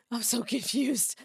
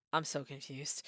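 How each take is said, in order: First: Said in the usual way. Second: Low, soft confused mumble; quiet bewildered murmur. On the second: Real, not acted. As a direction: mutter it to yourself, lost.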